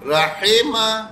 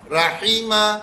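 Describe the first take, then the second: First: "راحمہ" slowly as "ra-hay-ma"; slow "راحمہ" with a lax "ay"; wrong reading. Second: "راحمہ" as "ra-hee-ma"; "راحمہ" with a clear "ee"; correct reading. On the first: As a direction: show the mistake: "hay" in "راحمہ". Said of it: "غلط ہو گیا". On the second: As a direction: model the right "hee" in "راحمہ". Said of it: "صحیح ہو گیا". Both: Shown as a demonstration.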